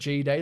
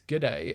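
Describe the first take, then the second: First: The first part is said as the letter G. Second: The first part is a clipped 'g' sound. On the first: The speaker calls it wrong. "instead of G-Day, like you introduced me" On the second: The speaker calls it right. "it's G'day, and G'day is short for have a, have a good day"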